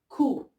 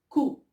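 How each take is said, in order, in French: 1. La syllabe commence par un K dur. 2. La syllabe commence par un K dur.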